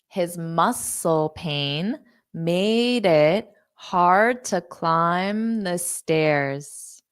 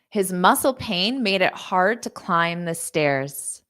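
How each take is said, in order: First: The sentence is spoken at a slow pace. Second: The sentence is spoken at a fast pace. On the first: "Now I'll say it slowly" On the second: "So I'll say it fast"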